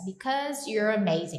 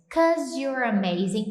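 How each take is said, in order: First: The first word is said in full, two syllables. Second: The first word is shortened to one syllable. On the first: "para falar because" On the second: "é um jeito mais contraído que eles usam para falar informal"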